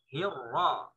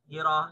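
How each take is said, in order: First: The r is held doubled and joined. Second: The r is short and single. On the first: The speaker calls it right. "Nempel ya. Hirra. Seperti itu" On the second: The speaker calls it wrong. "Jangan sampai ro-nya satu hilang"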